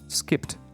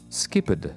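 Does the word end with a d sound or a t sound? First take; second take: t sound; d sound. First: The ending is pronounced as a t sound. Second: The ending is pronounced as a d sound. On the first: The speaker calls it right. "if I say t, like skipped, it becomes easy" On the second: The speaker calls it wrong. "to me this is uncomfortable"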